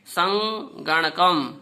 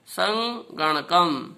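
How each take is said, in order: First: Said in the usual way. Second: संगणकम drawn out slowly, each syllable सं-ग-ण-कम separated. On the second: Shown as a demonstration. Teacher repeats संगणकम for pupils, very slowly. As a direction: spell out संगणकम slowly for the class. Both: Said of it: "इसे बोल के देखेंगे".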